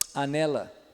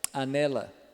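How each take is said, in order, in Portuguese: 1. A palavra começa com um som de clique labial. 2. A palavra começa com um som de clique labial.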